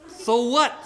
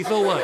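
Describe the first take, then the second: First: High, defiant question; bratty retort. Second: Said in the usual way. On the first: Acted. Cursed girl unimpressed by mommy's joy, high bratty retort. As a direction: throw it back high.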